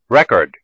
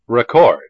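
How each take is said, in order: First: The stress is on the first syllable. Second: The stress is on the second syllable. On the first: It is used as a noun. "the first syllable of the noun has primary stress" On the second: It is used as a verb. "the second syllable of the verb has primary stress"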